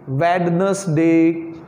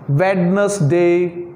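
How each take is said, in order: First: The D sound is pronounced in the word. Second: The D sound is pronounced in the word.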